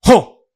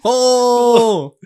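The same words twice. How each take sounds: First: The roar is short and clipped. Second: The roar is drawn out and long.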